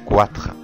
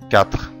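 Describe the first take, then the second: First: A 'w' sound follows the 'k'. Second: No 'w' sound follows the 'k'. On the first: The speaker calls it wrong. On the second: The speaker calls it right.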